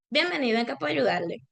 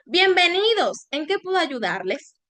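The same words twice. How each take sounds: First: Fast, rushed, indifferent greeting. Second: Warm welcome. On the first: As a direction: rattle it off like you don't care. (saludo rápido e indiferente) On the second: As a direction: greet them like you truly want to help. (bienvenida cálida y pausada) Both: Shown as a demonstration. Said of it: "la misma frase con distintos tonos".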